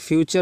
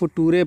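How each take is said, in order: First: The middle consonant is a 'ch' sound. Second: The middle consonant is a plain 't' sound. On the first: The speaker calls it right. "फ्यूचर होता है" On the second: The speaker calls it wrong. "बहुत से बच्चे फुटूरे पढ़ देते हैं"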